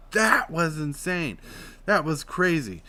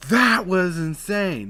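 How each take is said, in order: First: Belly voice demo. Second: Loud and high, drawn out slowly; belly push. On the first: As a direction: push the air up for emphasis. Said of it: "When I say that, I'm like". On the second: Vlogger demoing a voice tip, loud belly push. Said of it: "That's me pushing with my belly". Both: Shown as a demonstration.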